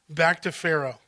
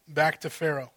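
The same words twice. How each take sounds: The two takes are said the same way.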